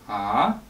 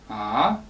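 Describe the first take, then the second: Both takes have the same delivery.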